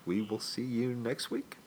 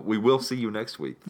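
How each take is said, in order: First: The voice rises at the end like a question. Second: The voice falls at the end like a statement. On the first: The speaker sounds unsure it will happen. The speaker calls it wrong. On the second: The speaker sounds certain it will happen. The speaker calls it right.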